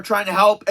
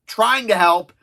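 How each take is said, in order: First: Said in the usual way. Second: "trying" set apart and punched; pointed emphasis on "trying"; stress on trying. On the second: Real, not acted. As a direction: lean hard on the word "trying". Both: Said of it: "again, trying to help".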